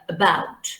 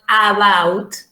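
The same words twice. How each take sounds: First: The first vowel is reduced to a schwa. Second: The first vowel is a full, unreduced vowel. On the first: The speaker calls it right. "but uh, about" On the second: The speaker calls it wrong. "It's not about"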